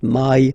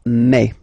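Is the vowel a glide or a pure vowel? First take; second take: glide; pure vowel. First: The vowel glides like English 'my'. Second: The vowel is a single open e sound. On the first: The speaker calls it wrong. "the English way" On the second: The speaker calls it right. "really open e"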